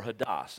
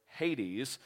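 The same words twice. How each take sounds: First: Hades said as "huh-DAHS", stress on the end; made-up scholarly pronunciation of Hades. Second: Said in the usual way. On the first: Shown as a demonstration. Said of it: "Hades is how we actually pronounce that". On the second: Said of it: "how we actually pronounce that".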